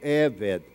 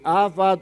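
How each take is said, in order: First: The word is read with 'e' vowels. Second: The word is read with 'a' vowels. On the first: Slavery and heavy toil. "ou Eved" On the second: Work that praises God. "você pode ler Avad"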